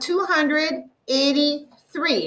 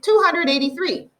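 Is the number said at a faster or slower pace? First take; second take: slower; faster. First: The number is said at a slower pace. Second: The number is said at a faster pace.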